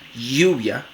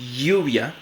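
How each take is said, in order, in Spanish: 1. La ll es una fricativa palatal sonora. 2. La ll es una fricativa palatal sonora.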